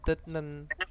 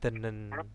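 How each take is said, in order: First: A t sound is said before the n. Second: The t sound becomes n, giving a double n. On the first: The speaker calls it wrong. "tetapi bacanya bukan detnen" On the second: The speaker calls it right. "untuk memudahkannya menjadi denen"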